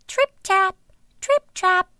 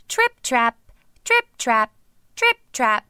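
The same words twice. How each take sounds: First: High, light trip-trap; light tripping steps. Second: "Trip-trap" in firm, even beats; less light steps. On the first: Youngest goat crossing the bridge, high light patter. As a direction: step lightly in a high little voice. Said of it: "lightly tripping over the bridge". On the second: Second goat crossing the bridge, "Trip-trap" in firmer steps. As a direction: step out "Trip-trap" in a middle-weight voice. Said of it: "not nearly as light on his feet". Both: A narrator's reading.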